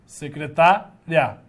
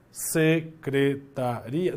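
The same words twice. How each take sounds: First: Secretária slowly split, stress on TÁ and ending in a quick ria; secretária in beats, strong tá, unstressed ria. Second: Secretaria slowly split as se, cre, ta, RI-a; low, slow secretaria in separate beats, ending ri-a; syllable by syllable, stress on RI. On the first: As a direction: sound out secretária with the accent moved to tá. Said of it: "só que o acento mudou". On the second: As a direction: sound out secretaria with the i as its own stressed vowel. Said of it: "Separando em sílabas dá certo isso?". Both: Shown as a demonstration.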